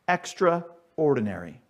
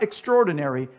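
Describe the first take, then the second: First: It is said as extra plus ordinary. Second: It is said as one blended word. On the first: Someone just average and everyday. The speaker calls it right. "This is just your average, everyday individual" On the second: Someone remarkable or exceptional. The speaker calls it wrong. "Not extraordinary"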